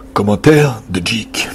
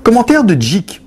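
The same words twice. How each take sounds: First: Low, slow announcement; deep manly voice. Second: Said in the usual way. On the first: Shown as a demonstration. Host re-announcing Jik's comment, deep manly voice. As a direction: drop it deep and draw it out. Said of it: "Faut que tu fasses la voix". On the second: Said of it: "Ah non, excusez-moi".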